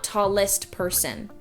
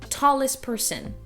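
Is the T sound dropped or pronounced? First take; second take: pronounced; dropped. First: The T between the consonants is pronounced. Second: The T between the consonants is dropped. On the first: "not tallest person" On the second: "a T or a D in between two consonants also gets removed"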